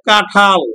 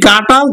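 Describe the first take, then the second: First: The middle consonant has a breathy aspiration. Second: The middle consonant has no aspiration. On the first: "অল্প প্রাণ মহাপ্রাণ হয়ে গেছে" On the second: "এতে ট"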